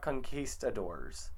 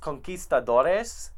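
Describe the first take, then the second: First: The word ends in a single '-dors' syllable. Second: The word ends with an extra '-es' syllable. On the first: The speaker calls it wrong. "not conquistadors" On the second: The speaker calls it right. "It's conquistadores"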